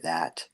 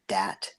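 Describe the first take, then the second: First: The word begins with a th sound. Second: The word begins with a d sound.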